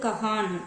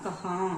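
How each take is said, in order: First: The word ends with a clear n sound. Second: The word ends with a nasalized vowel. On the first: The speaker calls it wrong. "இது வந்து கஹான் அப்படின்னு நம்ம படிக்கல" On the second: The speaker calls it right. "ரெண்டு சவுண்டுமே இல்லாம கஹா, அந்த மூக்குல அந்த சவுண்ட் வரும்"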